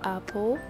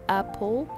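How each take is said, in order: No difference in how they are said.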